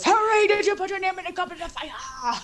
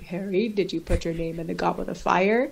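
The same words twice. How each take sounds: First: Dumbledore's line is said agitatedly. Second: Dumbledore's line is said calmly.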